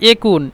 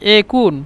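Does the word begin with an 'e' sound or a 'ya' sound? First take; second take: e sound; e sound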